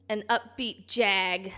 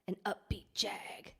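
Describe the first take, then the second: First: Said in the usual way. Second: Breathy whisper, slower. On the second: Shown as a demonstration. Streamer repeating her own phrase to chat, slow whisper. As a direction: hush it right down to a whisper. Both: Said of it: "I don't know why I just said it like that".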